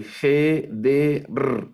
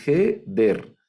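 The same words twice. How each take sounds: First: "G, D, R" in three separate pieces, the R trilled alone; drawn-out "G, D, R", final R cut loose; wrong syllable split. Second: "G, der" in two beats, R joined to the second; two syllables only: "G" and "der"; correct syllable split. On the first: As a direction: break it up as "G", "D", then a lone "R". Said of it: "No la voy a dividir". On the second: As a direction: say "G", then "der" as one closed syllable. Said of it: "No, solo es". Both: Shown as a demonstration.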